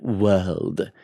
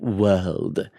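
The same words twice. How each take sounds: First: The word is said with a British accent. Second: The word is said with a British accent.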